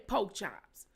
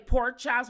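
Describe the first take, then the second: First: The first word has no r sound. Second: The first word has an r sound. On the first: "We say poke chops" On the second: "We don't say pork chops"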